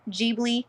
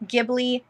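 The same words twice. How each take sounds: First: Ghibli said JIB-lee with a soft J sound. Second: Ghibli said GIB-lee with a hard G at the start. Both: Shown as a demonstration. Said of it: "however you wanna pronounce it".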